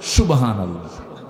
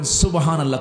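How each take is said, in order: First: It is said in a Rajshahi regional accent. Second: It is said in standard pronunciation.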